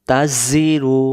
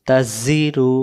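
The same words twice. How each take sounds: No difference in how they are said.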